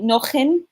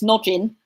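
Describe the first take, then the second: First: The J is read the Spanish way. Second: The J is read the English way. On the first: The family would be Spanish-speaking. "If you're Spanish, Spanish speaking" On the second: The family would be English. "if you're English, it's"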